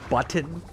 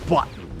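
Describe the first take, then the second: First: The middle t is clearly and carefully pronounced. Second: The middle t is dropped or swallowed.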